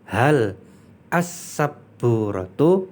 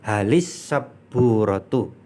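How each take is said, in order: First: The two words are said separately, unlinked. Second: The words run together with an added i vowel. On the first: "kalau dipisah itu hal kemudian as-sabburatu" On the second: "maka dia dikasroh"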